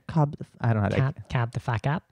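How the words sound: It is said in an Australian accent.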